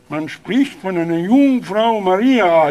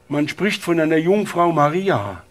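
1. Er wird mit nasaler Stimme gesprochen. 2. Er wird mit normaler, nicht nasaler Stimme gesprochen.

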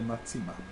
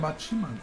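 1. Die mittlere Silbe wird mit 'tsi' gesprochen. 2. Die mittlere Silbe wird mit 'chi' gesprochen. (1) "nicht der Matsima" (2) "das Zi wird manchmal auch als Chi ausgesprochen"

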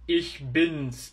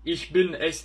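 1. Zamir, bin üzerinde s sesine iner. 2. Zamir ayrı, tam bir hecedir. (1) "ich bin's diyorsunuz" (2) "ich bin es değil"

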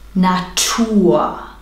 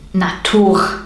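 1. Das R am Ende ist ein Vokal wie A. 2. Das R am Ende ist ein klarer Konsonant. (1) "am Ende des Wortes sprichst du immer ein A aus" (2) "und nicht Natur"

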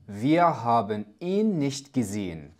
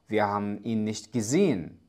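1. تُنطق كل مقطع بوضوح وبشكل كامل. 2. تُحذف مقاطع وتتداخل الكلمات ببعضها. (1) "نطق واضح وسهل" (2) "لكن غالبا هذه الجملة تنطق"

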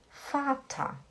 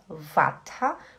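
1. A palavra começa com o som de F surdo. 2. A palavra começa com o som de V sonoro. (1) "você fala fata" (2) "Você não fala vata"

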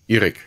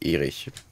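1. Der Name endet mit einem harten k-Laut. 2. Der Name endet mit einem weichen ch-Laut. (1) "spricht man es vermutlich Erik aus" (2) "Nicht Erich"

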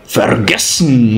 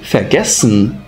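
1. O r do prefixo soa como consoante. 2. O r do prefixo soa como a vogal a. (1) "e não vergessen" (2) "ou vergessen"

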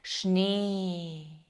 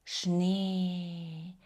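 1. Голосний — це один довгий рівний звук. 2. Голосний — це один довгий рівний звук.

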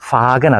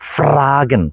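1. r ശബ്ദം വിട്ടുകളയുന്നു. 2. r ശബ്ദം ശക്തമായി പറയുന്നു. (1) "ഫാഗൻ അല്ല" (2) "ശക്തമായിട്ട് പ്രൊണൗൺസ് ചെയ്യുന്നു"

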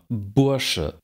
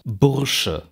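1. Das r wird als Vokal ausgesprochen. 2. Das r wird als Konsonant ausgesprochen. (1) "Da ist nirgendwo ein R" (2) "Niemand sagt im Standard"

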